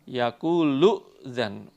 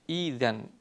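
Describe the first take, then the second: First: The word is joined with an audible glottal stop. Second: The word begins with a long 'ee' glide. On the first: The reading continues from the previous word. "kalau dilanjutkan dengan kalimat sebelumnya, itu hamzahnya dihidupkan" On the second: The reading starts fresh at this word. "kalau dibaca dari kalimat idzan, itu hamzahnya diganti ya"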